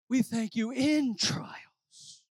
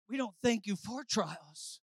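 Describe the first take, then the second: First: Slow, with "in" drawn out and leaned on; stress on IN. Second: Soft, with weight on "for"; stress on FOR. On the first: Preacher praying about trials, slow weighty stress on "in". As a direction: stretch out "in" as the correction. Contrasts "in" with "for. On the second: Preacher praying about trials, soft stress on "for". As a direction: set "for" apart quietly as the thing denied. Contrasts "for" with "in. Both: Real, not acted.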